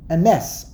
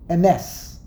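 First: The stress is on the second syllable. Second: The stress is on the second syllable.

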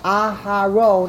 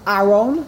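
First: The h has a full, long vowel after it. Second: The h sound is left out entirely. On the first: "I just pronounced the hay with a full patach" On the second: "If you swallow the hay, you just say aron"

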